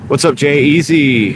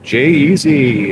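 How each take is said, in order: First: Big announcer greeting; game show voice. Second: Slow drawn-out host announcement; game show voice. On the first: Real, not acted. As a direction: hype it like a game show host. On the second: Shown as a demonstration. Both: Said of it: "I got the game show voice going now".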